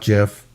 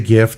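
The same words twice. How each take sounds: First: It begins with a soft J sound. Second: It begins with a hard G sound. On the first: The speaker calls it wrong. "not GIF. it's not like Jiffy peanut butter" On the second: The speaker calls it right. "I say GIF"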